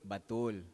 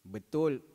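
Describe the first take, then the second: First: The first vowel is a full 'a' sound. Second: The first vowel is a weak schwa sound.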